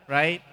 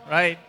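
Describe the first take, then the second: The two takes are said the same way.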